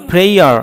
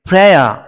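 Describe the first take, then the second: First: The word ends with an r sound. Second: The word ends in a vowel without r. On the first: The speaker calls it wrong. "আমরা বলি প্রেয়ার, আসলে নয় প্রেয়ার" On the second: The speaker calls it right. "এটি হবে প্রেয়া।"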